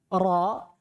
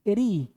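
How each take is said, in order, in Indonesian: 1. Bunyi ra-nya tebal, berat, dan penuh. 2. Bunyi ra-nya tipis, ringan, dan berada di depan. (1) "dibaca tebal" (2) "dibaca tipis"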